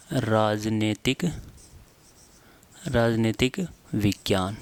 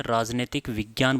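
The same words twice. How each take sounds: First: राजनीतिक विज्ञान stretched out, with long pauses; slow dictation. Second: Said in the usual way. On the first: Shown as a demonstration. Teacher dictates term for writing. (धीरे-धीरे, रुक-रुककर लिखवाते हुए)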